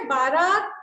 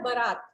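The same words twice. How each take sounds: First: बारात with a long drawn first "baa", loud; बारात said loudly as the mistaken long-vowel form; wrong pronunciation. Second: बारात with a short first vowel, "ba-RAAT"; correct pronunciation. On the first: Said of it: "बारात नहीं बोला जाता है". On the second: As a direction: say बारात as "buh-raat", lower and falling. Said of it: "बारात सही शब्द होता है". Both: Shown as a demonstration.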